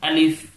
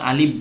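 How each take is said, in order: First: The word ends with an f sound. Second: The word ends with a p-like sound. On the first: The speaker calls it right. "অনেকটা ফর উচ্চারণ অর্থাৎ ফার উচ্চারণ। ... আলিফ দ্রুত।" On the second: The speaker calls it wrong. "আলিফ শেষে পর উচ্চারণ করি"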